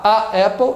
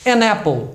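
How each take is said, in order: First: "a apple" with a catch between the two vowels; halting vowel clash. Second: "An apple" run together as "a-napple"; linked sound. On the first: Teacher shows it doesn't work, blocked vowel after vowel. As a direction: stop in the throat between "a" and "apple". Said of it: "eu tinha que parar, travar". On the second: Teacher shows why the article changes, linked N. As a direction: glide the N of "An" into "apple". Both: Shown as a demonstration.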